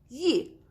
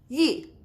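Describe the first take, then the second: The two takes are said the same way.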